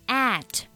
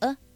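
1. 这个元音是一个完整的开元音。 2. 这个元音是一个弱读的元音。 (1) "单独去读的话呢，它是读作了at that" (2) "我们可以把它弱读成a 的发音"

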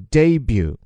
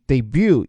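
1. 重音在第一个音节。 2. 重音在第二个音节。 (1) "前面的重音叫做debut" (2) "美音里把它放在第二个音级debut 也是对的"

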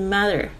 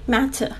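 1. 中间的辅音是介于t和d之间的轻柔音。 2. 中间的辅音是清脆、清晰的t音。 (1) "是mother，它是介于T 跟D 之间的那个浊音，就是很轻很柔的声音" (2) "你还是可以发出那个很脆的声音matter"

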